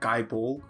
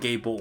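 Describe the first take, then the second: First: The first word sounds like 'guy'. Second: The first word sounds like 'gay'. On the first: The speaker calls it right. "apparently I'm saying it wrong. It's like Guy Bolg" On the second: The speaker calls it wrong.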